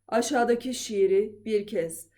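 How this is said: The voice is low, approaching bass. "Artık pese doğru iniyorum"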